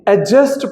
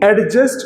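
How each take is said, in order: First: The d sound is silent. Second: The d sound is clearly pronounced. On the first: The speaker calls it right. "तो हम ये एडजस्ट पढ़ेंगे" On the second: The speaker calls it wrong. "इसको एडजस्ट कहना नामुनासिब होगा"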